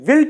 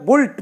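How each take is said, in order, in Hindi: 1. यह स्वर 'bit' में 'i' जैसा बोला जाता है। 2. यह स्वर 'put' में 'u' जैसा बोला जाता है। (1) "उसके लिए विल्ट होता है" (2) "बच्चे आमतौर से जैसे होता है बुल्ट पढ़ देते हैं"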